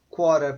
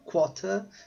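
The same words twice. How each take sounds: First: It is said in an American accent. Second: It is said in a British accent.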